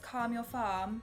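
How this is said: It is said in a British accent. "Like British"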